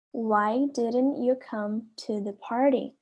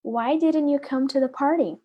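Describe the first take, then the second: First: Slow, careful classroom model; slow repeat. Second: Said in the usual way. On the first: Shown as a demonstration. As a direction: stretch it out for the class to copy. (devagar, para os alunos repetirem) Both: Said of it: "A letra A fala assim".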